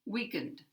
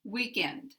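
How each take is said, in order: First: "Weakened" with the second syllable reduced to schwa. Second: "Weekend" with a full eh in the second syllable; full vowel. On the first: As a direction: stress weak, swallow the vowel after it in "Weakened". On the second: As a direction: keep end clear and unreduced in "Weekend". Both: Shown as a demonstration. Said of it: "These are two different words".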